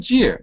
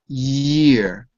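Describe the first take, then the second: First: The word begins with a J sound. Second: The word begins with a Y sound. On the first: The speaker calls it wrong. "It doesn't say jeer" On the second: The speaker calls it right. "careful of the j sound"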